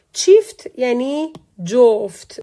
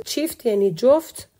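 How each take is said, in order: First: چیفت یعنی جفت spelled out slowly and loudly; teacher's slow emphatic demo; slow careful model reading. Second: Said in the usual way. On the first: Shown as a demonstration. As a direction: read چیفت slowly and loud for the class to copy.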